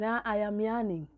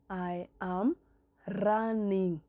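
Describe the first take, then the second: First: The verb starts with a Y sound. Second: The verb starts with an R sound. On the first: A young child is still learning the sound. The speaker calls it wrong. "If the child says" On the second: An adult models the correct pronunciation. The speaker calls it right. "make sure you say"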